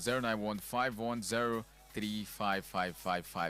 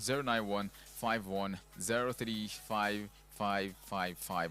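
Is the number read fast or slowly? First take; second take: fast; slowly. First: The number is read fast. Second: The number is read slowly.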